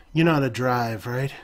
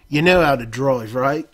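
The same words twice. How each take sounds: First: Said in the usual way. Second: Louder, broad Cockney on "drive, right"; Cockney accent. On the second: Acted. No-Nose tossing the keys to the player, Cockney accent. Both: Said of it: "Forgot the accent".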